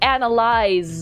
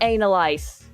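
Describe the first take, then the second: First: The word ends with a buzzing z sound. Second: The word ends with a hissing s sound. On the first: The speaker calls it right. "It's analyze" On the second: The speaker calls it wrong. "not analyze"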